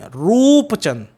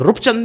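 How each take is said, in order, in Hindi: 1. पहला स्वर लंबा है। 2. पहला स्वर छोटा है। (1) "अब रूपचंद में है लॉन्गर साउंड है" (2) "रूपचंद नहीं बोलेंगे"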